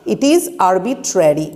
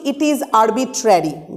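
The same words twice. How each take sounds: First: Slower, lower repeat; slow read. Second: Slow, stress on is; slow read. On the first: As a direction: say it again slowly for them to note. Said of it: "ভালো করে দেখো". (আরও ধীরে, নিচু গলায় বলা) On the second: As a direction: dictate slowly. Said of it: "যেটা বলা হচ্ছে যে আমরা বলছি". (ধীরে ধীরে বলা) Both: Shown as a demonstration.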